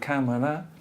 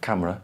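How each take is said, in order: First: It has three syllables, keeping the middle vowel. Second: It has two syllables, dropping the middle vowel. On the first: "Instead of camera" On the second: "Omission of the schwa before L and R"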